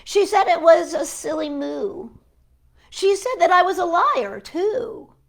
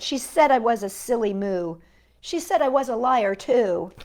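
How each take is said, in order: First: Lively poem reading. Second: Said in the usual way. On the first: Acted. Librarian reading the poem aloud with lively lift. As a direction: perform the indignant lines for the kids. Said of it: "She wouldn't believe this pencil". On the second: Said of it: "rereading the poem lines".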